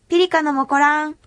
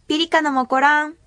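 No difference in how they are said.

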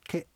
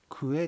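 First: The syllables merge into one syllable, ke. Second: Two separate syllables, ku and e, are said. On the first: "言葉がくっついちゃいまして、クエがケという表現になります" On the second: "静内方言で言うとくえというものがあります"

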